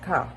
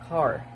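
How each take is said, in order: First: It is said in a British accent. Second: It is said in an American accent. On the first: "in British, we could uh, pronounce it as ka" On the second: "In American"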